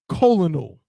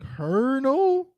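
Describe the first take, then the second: First: It is said with three syllables, col-o-nel. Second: It is said with two syllables, kernel. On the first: The speaker calls it wrong. "is not colonal" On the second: The speaker calls it right. "It's kernel, like a kernel of corn"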